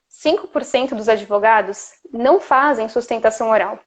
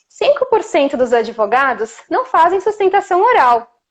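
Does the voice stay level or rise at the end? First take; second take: level; rise. First: The pitch stays level and steady to the end. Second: The pitch keeps rising high toward the end. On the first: The speaker sounds credible and authoritative. The speaker calls it right. "segunda passa mais credibilidade" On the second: The speaker sounds unsure and not credible. The speaker calls it wrong. "essa voz que está sempre indo para o agudo"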